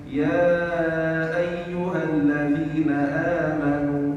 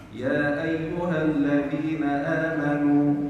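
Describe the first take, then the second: First: The vowel before the hamza is held moderately long. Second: The vowel before the hamza is held briefly. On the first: "ويجوز التوسط" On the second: "يجوز القصر"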